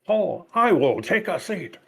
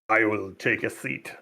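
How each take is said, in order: First: It is said in a put-on accent. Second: It is said in a normal voice.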